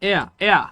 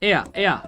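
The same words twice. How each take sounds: No difference in how they are said.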